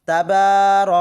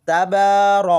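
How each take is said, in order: The two takes are said the same way.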